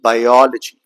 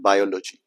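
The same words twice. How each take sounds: First: "Biology" as bi-OL-ogy, OL long and loud; second syllable stressed. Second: "biology" as BI-o-lo-gy, no weight on OL; wrong stress. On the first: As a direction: punch the OL in "Biology". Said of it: "to be spoken longer and louder". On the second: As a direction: stress the first syllable of "biology". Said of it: "not biology". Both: Shown as a demonstration.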